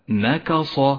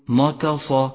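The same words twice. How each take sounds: First: The first two consonants are light; the last heavy. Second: The first two consonants are heavy like the last. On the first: The speaker calls it right. "فاقرأ هكذا نكص" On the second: The speaker calls it wrong. "وياك أن تقول نكص فهو خطأ"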